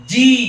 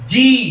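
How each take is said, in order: No difference in how they are said.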